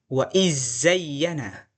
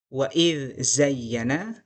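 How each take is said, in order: First: The dh merges completely into the following consonant. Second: The dh is pronounced clearly before the next consonant.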